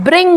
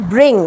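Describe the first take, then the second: First: ব্রিং ending in a released "g"; hard g. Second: ব্রিং ending on a pure "ng"; silent g. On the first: Teacher shows the wrong bring, hard g. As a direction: pop a g at the end of ব্রিং. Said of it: "না". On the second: Teacher gives the correct bring, silent g. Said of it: "এটা হচ্ছে". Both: Shown as a demonstration.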